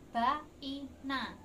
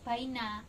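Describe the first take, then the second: First: The vowels are split into separate syllables. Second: The vowels glide together as one diphthong. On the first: "anak kita bisanya membaca baina" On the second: "kita harus mengajarkan atau melafalkannya secara benar"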